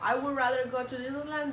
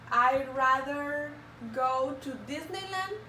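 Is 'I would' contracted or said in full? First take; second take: full; contracted. First: 'I would' is said as two full words. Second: 'I would' is shortened to one quick syllable.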